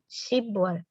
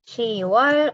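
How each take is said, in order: First: A b sound is heard before wol. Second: No b sound is heard before wol. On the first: The speaker calls it wrong. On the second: The speaker calls it right.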